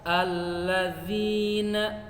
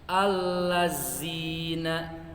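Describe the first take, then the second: First: The middle consonant is a soft dh sound. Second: The middle consonant is a buzzing z sound. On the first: The speaker calls it right. "Seharusnya dibaca" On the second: The speaker calls it wrong. "malah dibaca"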